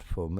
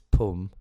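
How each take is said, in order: First: The word begins with an f sound. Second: The word begins with a p sound. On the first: The speaker calls it wrong. "not Fum" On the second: The speaker calls it right. "it's Pum"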